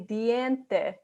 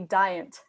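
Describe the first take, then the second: First: Each vowel sound is pronounced separately. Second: The vowels are merged in an English way. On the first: The speaker calls it right. "in Spanish, we want to make sure that we separate each of the vowel sounds" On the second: The speaker calls it wrong. "if this was English, it'd be dient"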